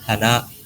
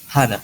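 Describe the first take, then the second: First: The first syllable is low, not high. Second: The first syllable is high, the second short. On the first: It means nose. "yang hidung ini hana" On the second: It means flower. "hanya yang tinggi, nanya pendek"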